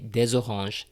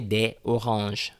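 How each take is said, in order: First: The words are linked with a z sound. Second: The words are said without a linking z sound. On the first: The speaker calls it right. "Say des oranges. You know, make the liaison" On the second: The speaker calls it wrong. "don't say des oranges. Well, it sounds a bit clunky"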